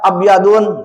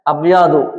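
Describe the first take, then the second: First: The word ends with an added n sound. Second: The word ends on a plain u sound. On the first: The speaker calls it wrong. "Gak boleh membaca abyadun" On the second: The speaker calls it right. "Yang benar apa? Abyadu, dilarang tan tanwin"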